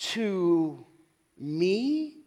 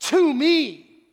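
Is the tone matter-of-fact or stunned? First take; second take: stunned; matter-of-fact. First: It is said as a stunned, surprised question. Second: It is said as a plain, matter-of-fact statement.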